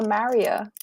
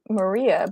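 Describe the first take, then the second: First: The name is said the Caribbean way. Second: The name is said the standard way. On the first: "but we call her Maria" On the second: "She spells her name like Maria"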